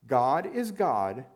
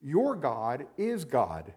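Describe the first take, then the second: First: "is" lifted and louder, slow; God "is" God, the middle word pressed up and held; stress on is. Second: Said in the usual way. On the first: Shown as a demonstration. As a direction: lean into "is", slow and rising. Preacher repeats the phrase with emphasis.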